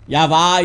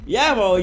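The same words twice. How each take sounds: First: Yava ending in an open ah; Malagasy pronunciation. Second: Yavo ending in a rounded O; Hebrew pronunciation. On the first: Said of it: "in Malachi". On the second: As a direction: say Yavo the Jewish way, final O. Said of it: "in, uh, Jew". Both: Shown as a demonstration.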